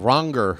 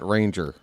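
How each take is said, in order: First: The first vowel sounds like 'ah' in 'father'. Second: The first vowel sounds like 'ay' in 'range'. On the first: The speaker calls it right. "but uh" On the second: The speaker calls it wrong. "you don't pronounce it"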